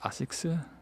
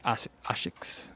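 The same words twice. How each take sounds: First: The word is stretched into three syllables. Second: The s sound is said almost like sh. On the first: A consonant followed by s is hard in Korean. "Maybe it turns into three syllables" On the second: This is how it would be said in Korea. "It's more like a S H almost"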